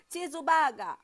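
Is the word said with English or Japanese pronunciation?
Japanese. It is said with Japanese-style sounds. The speaker calls it right. "Ini bayangkan kita lagi di Jepang"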